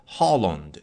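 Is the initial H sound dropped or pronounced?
pronounced. The word starts with an audible H sound. "其实是Holland"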